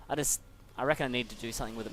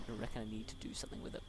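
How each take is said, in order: First: Said in the usual way. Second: Much softer, under his breath, quick; quiet frustrated repeat; muttered to himself. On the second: Real, not acted. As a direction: mutter it again to yourself.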